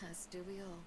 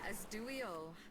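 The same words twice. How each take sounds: First: It is said softly, almost to herself. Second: It is said at normal loudness.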